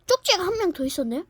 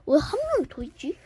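First: Surprised. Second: Said in the usual way. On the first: Acted.

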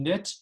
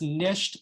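First: NIT with no sh sound; shortened form. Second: Said in the usual way. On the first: Shown as a demonstration. Teacher showing forms of nisht, NIT without sh. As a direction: drop the sh and say "nit". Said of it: "for the Litvaks". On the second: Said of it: "nisht becoming nit".

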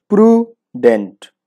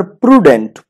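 First: প্রুডেন্ট broken slowly into "pru - dent"; syllable by syllable. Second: Said in the usual way. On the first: Shown as a demonstration. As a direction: say প্রুডেন্ট in two separate beats, pru, dent. (প্রুডেন্ট ধীরে দুই ভাগে ভেঙে, প্রু - ডেন্ট) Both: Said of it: "কয় syllable হলো".

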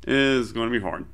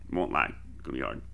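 First: Said in the usual way. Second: Quiet fast aside. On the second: Real, not acted. Repeats that it will be hard.

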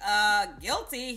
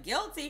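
First: Slow, drawn-out sheepish guilty; playful admission. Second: Quick echo with a teasing rise; playful echo. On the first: Owning up to the Dior salesman, slow and sheepish. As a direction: own up with a coy shrug in the voice. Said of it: "I was like". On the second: Salesman echoing her confession with a teasing rise. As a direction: toss the word back, amused. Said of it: "He was like". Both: Retold or imitated.

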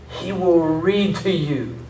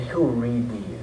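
First: "He will read to you" stretched out slowly, higher pitched; slow emphatic repeat. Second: Said in the usual way. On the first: Real, not acted. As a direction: draw out each word of "He will read to you".

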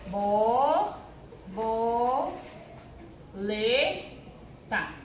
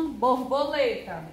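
First: "Bo, bo, le, ta" with a pause after each; syllable by syllable. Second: Said in the usual way. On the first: Shown as a demonstration. Teacher separating borboleta for pupils, syllable by syllable. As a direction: stretch and isolate each piece of "Bo, bo, le, ta". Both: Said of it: "sabem separar as sílabas".

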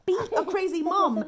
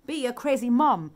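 First: Higher, playful sing-song slogan; raised repeat. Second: Said in the usual way. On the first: Pretend. Mum urging others to be crazy, pitched up playfully. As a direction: lift it up high and playful.

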